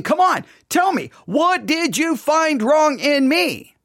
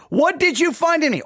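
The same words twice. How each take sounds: First: High, insistent demand for an answer; genuine demand. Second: Higher-pitched rhetorical challenge; rhetorical question. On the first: God inviting the people to answer, demanding. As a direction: press slowly for a real answer. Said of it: "maybe he's not asking such a rhetorical question". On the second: God questioning the people, rhetorically. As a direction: ask it expecting no answer. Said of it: "he's asking kind of a rhetorical question". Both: Acted.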